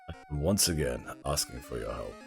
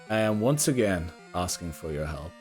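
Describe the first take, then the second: First: It is said in a very low, deep voice. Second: It is said in the normal speaking voice. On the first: The speaker calls it right. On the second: The speaker calls it wrong.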